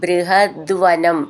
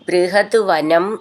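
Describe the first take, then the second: First: It is said as one joined word. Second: It is said as two separate words.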